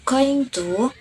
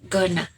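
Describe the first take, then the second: First: Both words are said fully and separately. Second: The words are squeezed into one reduced word. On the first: "The original word is going to" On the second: "after omission become gonna"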